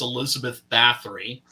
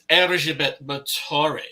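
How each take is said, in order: First: The name is pronounced the English way. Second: The name is pronounced the native way. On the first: "That's how we would uh, pronounce her name, just reading it" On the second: "but it's"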